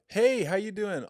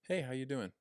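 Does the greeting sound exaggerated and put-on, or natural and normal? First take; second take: put-on; natural. First: It sounds exaggerated, in a changed, put-on voice. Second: It sounds natural, in a normal, smiling voice. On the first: The speaker is changing their voice for a new acquaintance. "if I was meeting someone for this time, I'd be like" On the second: The speaker is speaking in their own normal voice. "if I'm smiling and saying just like"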